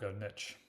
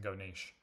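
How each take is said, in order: First: Niche is said the American way. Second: Niche is said in a non-American way.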